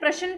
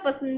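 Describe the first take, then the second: First: The word is pronounced with clear standard sounds. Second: The word is pronounced with a lisped, distorted sound. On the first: The speaker calls it right. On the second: The speaker calls it wrong.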